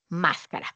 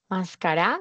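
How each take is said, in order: First: The stress is on the first syllable. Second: The stress is on the last syllable. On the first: "Palabra del grupo número tres" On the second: "grupo uno"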